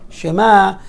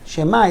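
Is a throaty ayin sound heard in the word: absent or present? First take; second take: present; absent. First: It is said with a throaty ayin sound. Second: It is said without a throaty ayin sound. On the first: The word means hear. The speaker calls it right. "you have to pronounce the ayin" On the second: The word means maybe. The speaker calls it wrong. "it means maybe"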